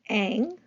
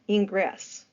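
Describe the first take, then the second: First: The name is one syllable sounding like ang. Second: The name ends with a clear ess sound. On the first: The speaker calls it right. "Sometimes it's pro- pronounced Ang" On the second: The speaker calls it wrong. "it's not Ingress. That's not right"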